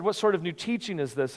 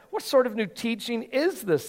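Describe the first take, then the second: First: Said in the usual way. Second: Higher, eager amazed question; excited question. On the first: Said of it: "it's interesting that they said". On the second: Acted. Crowd asking one another in amazement, excited and higher. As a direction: ask it like the crowd can't believe it. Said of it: "asked excitedly".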